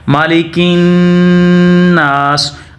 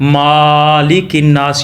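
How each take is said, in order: First: The first vowel of malik is short. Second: The first vowel of malik is long. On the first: The speaker calls it right. "दूसरा ना को लंबा भी करना है" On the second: The speaker calls it wrong. "माँ को यहाँ पे वो लंबा कर देते हैं"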